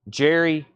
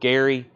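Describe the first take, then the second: First: The name starts with a J sound. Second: The name starts with a hard G sound. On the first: The speaker calls it right. "It's pronounced Jerry" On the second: The speaker calls it wrong. "I still sometimes say"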